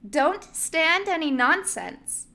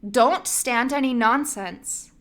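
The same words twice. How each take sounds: First: It is said in an annoying character voice. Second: It is said in a plain reading voice.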